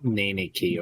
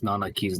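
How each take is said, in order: First: The middle vowel is an 'e' sound. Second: The middle vowel is an 'a' sound. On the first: The speaker calls it wrong. "where did you get the E?" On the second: The speaker calls it right. "good people that can speak English mispronounce Nanaki's name"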